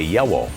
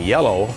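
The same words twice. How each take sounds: First: The double L is pronounced in a distorted way. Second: The double L is pronounced clearly. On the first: The speaker calls it wrong. "I had a double L problem" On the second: The speaker calls it right. "Instead of saying yellow"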